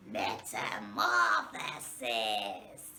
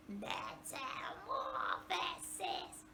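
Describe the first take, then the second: First: Much lower, slow zombie moan. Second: Slow, softer zombie moan. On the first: Teacher saying the word like a zombie. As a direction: groan it like a shambling zombie. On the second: Teacher repeating the word like a zombie. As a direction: drag it out like the undead. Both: Shown as a demonstration. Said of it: "like we are a zombie".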